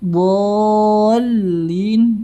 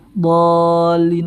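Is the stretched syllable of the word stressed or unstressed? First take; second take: stressed; unstressed. First: The lam syllable carries a clear stress. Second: The lam syllable carries no stress. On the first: The speaker calls it right. "Yang dinabarkan itu huruf lamnya" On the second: The speaker calls it wrong. "Mana nabernya? Mana penekanannya?"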